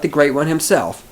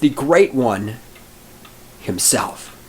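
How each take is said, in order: First: It is said without a pause before himself. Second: There is a pause before himself.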